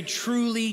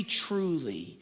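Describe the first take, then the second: First: Raised, ringing "Truly," to grab attention; emphatic truly. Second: Hushed repeat. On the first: Pastor quoting Jesus to the congregation, ringing emphasis. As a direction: open high and strong on "Truly,". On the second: Pastor quoting Jesus, repeating softly for weight. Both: Retold or imitated. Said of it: "when he wants to get our attention".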